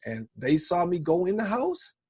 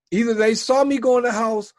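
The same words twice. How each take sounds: First: Said in the usual way. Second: Saw punched higher and louder; stress on saw. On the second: Shown as a demonstration. Telling a friend how the neighbors spotted him, saw stressed. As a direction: lean hard on the word saw.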